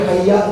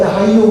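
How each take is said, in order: First: The word ends with an 'a' vowel. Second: The word ends with a 'u' vowel. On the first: It is the more eloquent, grammatically correct reading. The speaker calls it right. "tapi hayya lebih fasih" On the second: It is an acceptable reading. The speaker calls it wrong. "baca hayyu pun boleh"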